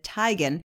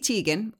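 First: The name is said the way its owner says it. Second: The name is said in another, non-owner way.

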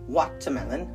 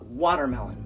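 First: The middle consonant is a clear 't' sound. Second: The middle consonant sounds like a soft 'd'. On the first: "Some people pronounce it watermelon" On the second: "in the United States, we call it watermelon. Like there's a D in it"

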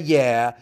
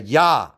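First: The name is said with a 'yeah' vowel. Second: The name is said with an open 'ah' vowel. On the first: The speaker calls it wrong. "It's not a Yah" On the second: The speaker calls it right. "it's a Yah"

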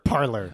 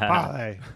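First: The name ends with an unstressed 'er' sound. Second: The name ends with a French-like 'ay' sound. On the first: "A parlor. We're in the parlor" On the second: "It's supposed to be parlay"

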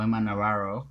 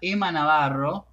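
First: It is said with an American accent. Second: It is said with a Spanish accent.

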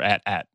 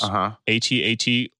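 First: The name is said as one word. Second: The name is spelled out letter by letter. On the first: "as far as pronunciation goes" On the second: "as far as pronunciation goes"

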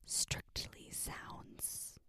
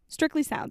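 First: It is said in a soft, whispery ASMR voice. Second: It is said in a plain, normal speaking voice.

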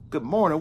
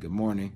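First: It is said with lively, upbeat energy. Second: It is said with calm, low energy.

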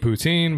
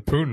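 First: The word does not sound like 'Putin'. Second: The word sounds like the name 'Putin'. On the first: This is how the speaker normally says it. "I call it poutine" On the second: This is how the restaurant staff said it. "I don't say that. That's a Russian guy"

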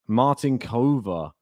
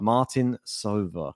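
First: The consonant before -ova is a K sound. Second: The consonant before -ova is an S sound. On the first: The speaker calls it wrong. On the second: The speaker calls it right.

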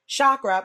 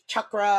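First: The word is said the common anglicized way. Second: The word is said in an attempted native way. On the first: The speaker calls it wrong. "because chakra was never right anyways" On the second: The speaker calls it right. "It's chakra, and I can't even say that properly"

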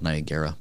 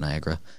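First: It is sounded out as it is spelled. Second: It is said in the usual, reduced way. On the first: "that's how it's spelled" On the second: "But people pronounce it"

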